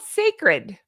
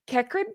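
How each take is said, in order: First: The name begins with an s sound. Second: The name begins with a hard k sound. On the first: The speaker calls it right. "It's called Sacred, but they spelled it like that" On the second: The speaker calls it wrong. "how would you pronounce that? I would say"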